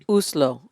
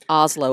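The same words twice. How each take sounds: First: Oslo is given a Norwegian-style pronunciation. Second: Oslo is given an American-style pronunciation. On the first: It repeats how the other person said it. "you said Oslo" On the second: It is the usual American way. "as we Americans would say"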